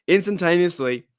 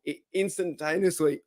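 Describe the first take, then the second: First: Said in the usual way. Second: Instantaneously breaks apart mid-word, softer; voice cracking. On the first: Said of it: "Live T V, I got it happen to me". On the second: Real, not acted. Live host's voice cracking mid-sentence, voice breaking. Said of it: "oh, my voice".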